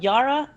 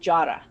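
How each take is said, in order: First: The name begins with a Y sound. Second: The name begins with a J sound.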